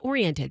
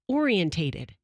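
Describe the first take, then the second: First: The word has no extra syllable, four in all. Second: The word has an extra syllable, five in all. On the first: The speaker calls it right. "No, it's oriented" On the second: The speaker calls it wrong. "they say orientated"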